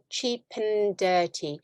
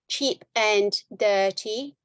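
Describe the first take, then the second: First: The word 'and' is reduced and linked. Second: The word 'and' is pronounced in full. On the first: The speaker calls it right. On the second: The speaker calls it wrong.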